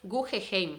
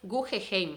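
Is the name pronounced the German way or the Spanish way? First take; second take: Spanish; Spanish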